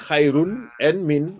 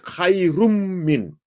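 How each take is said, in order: First: The n is kept separate before min. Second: The n merges into a doubled m sound. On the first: The speaker calls it wrong. "you don't say khairun and min" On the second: The speaker calls it right. "You say khairum min"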